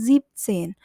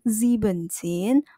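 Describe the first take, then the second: First: The 'en' of sieben is dropped. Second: The 'en' of sieben is kept inside. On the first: The speaker calls it right. "maka en pada kata sieben ini dihilangkan" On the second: The speaker calls it wrong. "bukan siebzehn"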